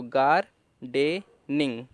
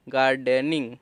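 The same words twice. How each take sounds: First: gardening stretched slowly; slow blend. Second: Said in the usual way. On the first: Shown as a demonstration. Teacher blends gardening slowly for learners. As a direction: draw out gardening slowly, syllable by syllable. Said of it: "तो gardening".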